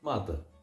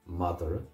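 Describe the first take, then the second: First: It is said without the r, Connacht-style. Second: It is said with an extra vowel, Munster-style.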